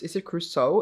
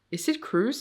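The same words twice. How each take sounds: First: "Crusoe" in two syllables, ending in soh; pronounced Crusoe. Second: "Cruise" as one syllable, no final oh; pronounced Cruise. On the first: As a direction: ask with a clear oh closing "Crusoe". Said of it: "do you pronounce this Cruise or Crusoe". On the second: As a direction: ask with "Cruise" like a sea cruise. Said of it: "It's not how you write Cruise". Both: Shown as a demonstration.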